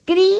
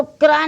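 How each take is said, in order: First: क्री as one syllable with ee; ri sound in क्री. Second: क्रा with an open aa, as kraa; wrong क्रा. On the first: Teacher showing how the sign sounds, kri for क्री. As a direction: kr straight into ee in क्री. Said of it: "री की तरह बोलना है". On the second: Teacher warning against this reading, kraa for क्रा. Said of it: "इसको क्रा नहीं बोलेंगे". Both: Shown as a demonstration.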